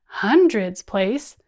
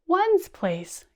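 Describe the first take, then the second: First: Big, slow and louder; loud slow chant; bigger voice. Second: Smallest voice. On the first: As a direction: boom out the big column slowly. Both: Shown as a demonstration. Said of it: "using our hands and our voices".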